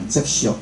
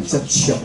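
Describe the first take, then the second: First: Put-on 接触 said the old, wrong way she grew up with; wrong reading. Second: 接触 said the corrected, proper way; correct reading. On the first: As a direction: read 接触 the way she was corrected away from. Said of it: "袂当念接触". (接触的错误念法) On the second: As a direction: read 接触 the way the Ministry teaches it. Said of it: "爱念接触". (接触的正确念法) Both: Shown as a demonstration.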